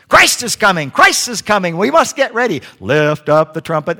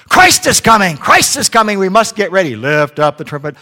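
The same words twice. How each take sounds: First: High, loud parrot preaching; shouting parrot preacher. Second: High, loud parrot preaching. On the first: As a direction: squawk a fiery sermon like a parrot. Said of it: "he's a preaching parrot". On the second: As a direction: blast it out like a squawking preacher. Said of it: "They heard". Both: Acted.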